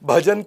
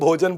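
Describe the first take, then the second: First: The first vowel is an open 'a' sound. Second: The first vowel is a rounded 'o' sound. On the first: The standard Hindi way of saying it. "भजन को भोजन बोलते हैं वो" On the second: A Bengali speaker's way of saying it. "भजन को भोजन बोलते हैं वो"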